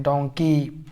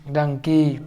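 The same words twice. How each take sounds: First: डोंकी with a rounded o, as in "dong-kee", falling at the end; donkey with o sound. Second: डंकी with a short a as in "dung-kee", falling tune; dunkey with a sound. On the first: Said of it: "ओ का sound लीजिएगा तो डोंकी पढ़ाएगा". (डोंकी को गोल ओ की आवाज़ के साथ, गिरते सुर में) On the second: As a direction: say डंकी with the a of "but". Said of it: "आ का साउंड लीजिएगा तो डंकी पढ़ाएगा". (डंकी को छोटे अ की आवाज़ के साथ, गिरते सुर में) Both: Shown as a demonstration.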